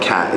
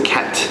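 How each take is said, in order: First: The final T sound is left off. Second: The final T sound is clearly pronounced. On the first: The speaker calls it wrong. "they're so used to saying like cat. And it's not cat" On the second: The speaker calls it right. "You have to get that T sound in there as well"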